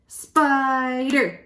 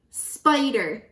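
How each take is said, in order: First: "Spider" stretched into two emphatic beats; syllable by syllable. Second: Said in the usual way. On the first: Shown as a demonstration. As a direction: sound out "Spider", lengthening the first syllable. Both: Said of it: "Two syllables in spider".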